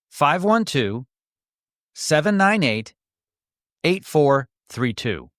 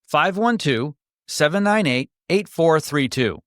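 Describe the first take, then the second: First: The number is read more slowly. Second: The number is read at normal speed.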